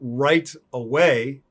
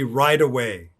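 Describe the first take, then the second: First: The t in right is a clear t. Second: The t in right is a d-like flap.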